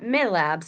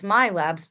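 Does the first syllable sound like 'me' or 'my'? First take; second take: me; my. First: The first syllable sounds like 'me'. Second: The first syllable sounds like 'my'. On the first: The speaker calls it wrong. "People pronounce that all the time wrong. It's not MiLabs" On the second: The speaker calls it right. "it's MyLabs"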